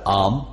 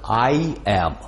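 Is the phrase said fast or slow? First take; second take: fast; slow. First: It is said quickly as one contracted syllable. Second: It is said slowly as two full words. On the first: "а быстро" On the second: "это медленно читается так"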